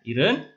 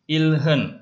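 First: It is said quickly, the l-h blurring to r. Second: It is said slowly with a clear l-h.

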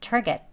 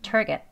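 No difference in how they are said.

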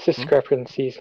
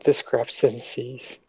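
First: The word is said without an extra S sound. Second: The word is said with an extra S sound. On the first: The speaker calls it right. "It's discrepancies" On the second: The speaker calls it wrong. "not discrepancies. There's not another S"

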